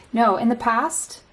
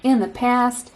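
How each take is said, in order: First: Said in the usual way. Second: "In the past" in a light put-on foreign accent, vowels stretched; mock accent. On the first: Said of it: "I just try to keep a neutral accent". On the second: Shown as a demonstration. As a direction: replay the stray accent on "In the past" playfully. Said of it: "someone you know has this accent".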